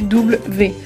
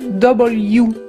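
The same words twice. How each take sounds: First: The letter is named the French way. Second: The letter is named the English way. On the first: The speaker calls it wrong. "En français, le W, c'est W" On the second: The speaker calls it right. "En anglais, on va dire W"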